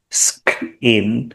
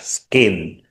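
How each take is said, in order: First: The k has a strong puff of air. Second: The k has no puff of air. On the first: The speaker calls it wrong. "We don't say" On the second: The speaker calls it right. "the K here is not an aspirated. We say"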